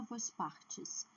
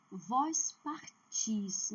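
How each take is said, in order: First: "vós partes" com força em PAR, final fraco; tônica errada em PAR. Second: "vós partis" bem lento, força na última sílaba; tônica em TIS. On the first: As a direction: diga "vós partes" acentuando a penúltima sílaba. ("vós partes" como exemplo errado, PAR forte e "tes" fraco) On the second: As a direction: separe e alongue "par-TIS" em "vós partis". ("vós partis" didático, com TIS forte) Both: Shown as a demonstration. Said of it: "não é vós partes".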